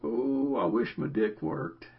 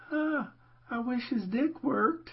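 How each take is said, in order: First: Put-on old man's voice. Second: Put-on high, slow old lady. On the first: Son joking to his dad about the old dude, old man's voice. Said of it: "in the old man's voice". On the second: Son joking to his dad about the old lady, old lady voice. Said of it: "in the old lady voice".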